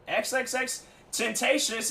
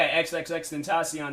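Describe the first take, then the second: First: The name ends with a 'shus' sound. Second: The name ends with a 'see-on' sound. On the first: The speaker calls it wrong. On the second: The speaker calls it right.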